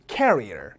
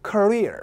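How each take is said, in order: First: "carrier" as KAIR-ee-er, first syllable stressed; carrier, front stress. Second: "career" as kuh-REER, high and falling on REER; stress on second syllable. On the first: Teacher showing the look-alike word, "carrier" stressed at the front. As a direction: hit the front of "carrier" and fall away low. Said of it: "얘를 얘처럼 읽는 경우가 많죠". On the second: Teacher having the class repeat, "career" stressed at the back. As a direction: hit the end of "career", not the front. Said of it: "강세가 뒤에 있습니다". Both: Shown as a demonstration.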